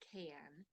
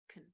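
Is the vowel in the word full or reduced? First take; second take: full; reduced. First: The vowel is pronounced fully. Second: The vowel is short and reduced.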